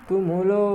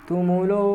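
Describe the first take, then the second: Both takes have the same delivery.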